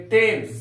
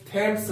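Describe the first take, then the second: First: टेम्स with a plain T, no H; टेम्स said quickly and firmly; correct way. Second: थेम्स with a breathy TH, as the mistake; थेम्स said as the wrong example. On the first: Teacher tells students the right way: टेम्स with a plain T. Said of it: "थेम्स नहीं बोलेंगे". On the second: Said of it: "हम लोग बोलेंगे टेम्स". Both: Shown as a demonstration.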